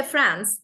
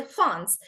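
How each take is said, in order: First: Said in the usual way. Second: "France" with throaty, swallowed French R; French-accented "France". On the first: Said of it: "They don't even say". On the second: Shown as a demonstration. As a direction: say "France" as the French do, nasal vowel. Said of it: "they say France".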